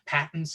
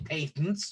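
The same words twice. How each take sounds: First: It is said with an American pronunciation. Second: It is said with a British pronunciation.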